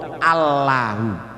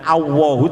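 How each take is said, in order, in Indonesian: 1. L dibaca sebagai L tipis dan ringan. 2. Bunyi L berubah jadi mirip W. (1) "tapi Allahu" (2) "jangan Allahu"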